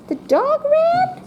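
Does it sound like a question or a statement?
question. It is said as a question.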